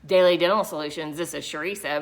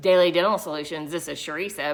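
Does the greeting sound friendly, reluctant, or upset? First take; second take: upset; upset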